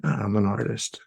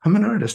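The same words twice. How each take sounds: First: Said in the usual way. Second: I'm jumps much higher, bright mock insight; sudden realization. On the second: Shown as a demonstration. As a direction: pitch "I'm an artist" way up as if it just clicked. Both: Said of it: "I better write a song".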